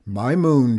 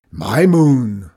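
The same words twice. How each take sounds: First: Louder, insistent shout. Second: Very loud, booming roar. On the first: Farmer corrects his rival's claim to the moon, shouting. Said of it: "shouted Nagel". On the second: Farmer outdoes both rivals claiming the moon, roaring. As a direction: roar it, topping every other voice. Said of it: "roared Zeke". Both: A narrator's reading.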